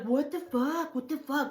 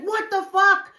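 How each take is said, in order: First: High, softened retold disbelief; stunned cousin. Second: High, loud re-enacted disbelief; shocked yell. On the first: Acts out cousin's stunned reaction. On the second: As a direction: shout it in stunned alarm. Retells own shock driving away.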